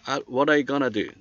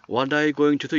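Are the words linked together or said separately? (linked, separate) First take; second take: linked; separate. First: The words run together in reduced, linked form. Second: Each word is pronounced fully and separately. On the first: The speaker calls it right. "이렇게 하죠" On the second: The speaker calls it wrong. "이렇게 하지는 않고요"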